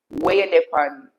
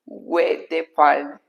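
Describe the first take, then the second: First: "Where you dey pan" run together in Jamaican patois; patois pronunciation. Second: Said in the usual way. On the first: Shown as a demonstration. Streamer showing how it is said, "Where you dey pan" in patois. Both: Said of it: "You say".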